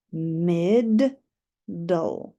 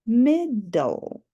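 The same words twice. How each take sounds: First: "Mid-" and "dull" said apart with a pause; syllables split. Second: Said in the usual way. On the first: Shown as a demonstration. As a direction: sound out each syllable separately.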